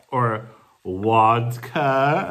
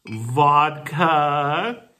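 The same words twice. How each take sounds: First: "wodka" with a W for the V, drawn out slowly; Polish wodka. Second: Said in the usual way. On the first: Shown as a demonstration. Teasing her Polish friend about vodka, Polish-style "wodka". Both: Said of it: "as you would say in Poland".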